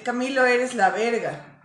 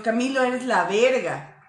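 First: Insulting tone. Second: Slower, admiring tone, lighter on verga; praising, admiring. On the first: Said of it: "O sea, es malo". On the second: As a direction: say it as real praise to a friend. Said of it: "es como que, "Ah, soy la verga". (en tono de halago, admirando a Camilo) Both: Shown as a demonstration.

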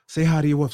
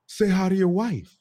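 First: Said in the usual way. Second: Higher, cocky parroting of an order; puffed-up echo. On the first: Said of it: "Ahmed was like". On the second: Retold or imitated. Wife with an ally echoes to her husband, puffed-up. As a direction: echo it smugly, backed by an ally. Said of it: "puff her chest out a little bit".

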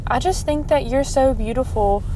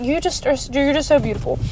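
First: Said in the usual way. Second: Gushing, a bit higher; gushing compliment. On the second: Shown as a demonstration. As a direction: blurt it out sweetly, gushing. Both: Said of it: "I just kinda said it like that".

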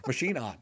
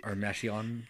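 First: "Machine on" as two words, ma-SHEEN ON; "Machine on" said like the word machine, then on. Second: "Machion" said as MAY-shee-on, three syllables; "Machion" with the sound of "machine" dropped to "mash-ee-on". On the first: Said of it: "It's machine on". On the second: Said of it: "Do you think that's how he pronounces it". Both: Shown as a demonstration.

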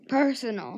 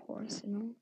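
First: PERSONAL said properly, loud and emphatic; corrected pronunciation. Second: PERSONAL with a wrong first vowel, like "porsonal"; mispronunciation quoted. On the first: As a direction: correct yourself with a firm, clear PERSONAL. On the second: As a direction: repeat the slip in PERSONAL, saying "por" for "per". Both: Shown as a demonstration. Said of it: "not personal".

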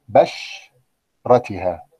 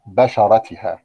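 First: بشرتها drawn out very slowly as the error; slow, exaggerated بشرتها; wrong form. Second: بشرتها said crisply as the correct form; normal-pace بشرتها. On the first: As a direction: hold the wrong بشرتها to show it. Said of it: "طبعًا غلط كلمة بشرة". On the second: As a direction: give the right بشرتها plainly. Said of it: "لكن الصواب أن أقول". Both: Shown as a demonstration.

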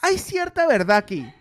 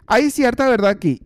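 First: Said in the usual way. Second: Louder emphatic repeat. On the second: Real, not acted. Comedian conceding to the audience, louder emphatic repeat. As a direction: repeat "Hay cierta verdad aquí" louder, leaning on "cierta".

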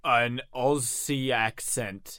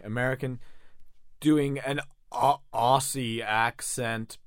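First: Slow, drawn-out mock Aussie accent; Australian accent attempt. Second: An American attempting an Australian accent; American doing Australian. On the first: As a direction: stretch out a badly faked Australian accent. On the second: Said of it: "just doing an American accent straight up". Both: Shown as a demonstration.

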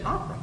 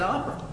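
First: "Opera" softly, higher, in proper posh British; proper posh British accent. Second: "opera" in a badly faked posh British accent; fake posh British accent. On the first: Retold or imitated. English spy correcting her handler, proper British "Opera". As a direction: show how a real Brit says "Opera". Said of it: "how's he supposed to say it?". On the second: Spy quoting the suspect fellow, fake posh British "opera". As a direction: say "opera" like a would-be posh Brit. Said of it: "His posh accent is fake".

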